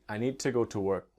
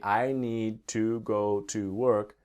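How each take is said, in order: First: It is said fast. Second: It is said very slowly.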